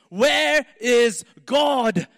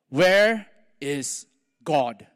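First: It is bellowed loudly, almost shouted. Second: It is asked in a plain, calm voice.

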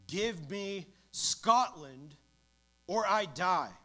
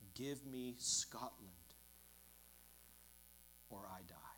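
First: It is said louder and with more fervour. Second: It is said in a soft, pleading voice.

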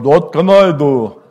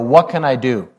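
First: It is said in Uncle Herb's German accent. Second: It is said in a plain accent.

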